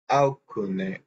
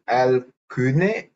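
First: The L is pronounced like a U vowel. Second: The L is pronounced as a clear L. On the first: "or L as U" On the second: "You spell the L as L"

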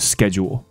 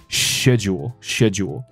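First: It is said with an American pronunciation. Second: It is said with a British pronunciation. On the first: "美式是schedule" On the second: "英式的发音是schedule"

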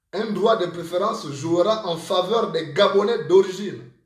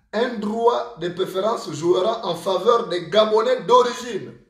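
The two takes are said the same way.

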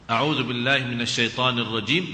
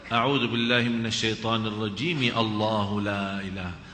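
First: It stops with a pause after 'rajim'. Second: It runs straight on after 'rajim' without pausing.

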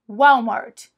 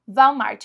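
First: It is said with an American English pronunciation. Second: It is said with a Brazilian Portuguese pronunciation. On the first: The speaker calls it right. "É assim que eles pronunciam" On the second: The speaker calls it wrong. "A gente fala assim"

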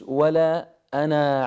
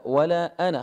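First: The final vowel of ana is long. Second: The final vowel of ana is short. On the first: The speaker calls it wrong. "مش ولا أنا عابد" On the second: The speaker calls it right. "خطف هذه الألف في حال الوصل لا تلفظ"

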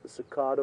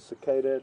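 First: The word is said the non-American way. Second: The word is said the American way.

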